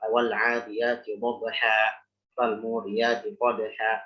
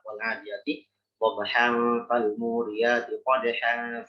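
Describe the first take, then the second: First: The words end with a long a, no n. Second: The words end with a sounded n. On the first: The reading stops at that point. "Kalau waqaf" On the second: The reading continues without stopping. "kalau wasal"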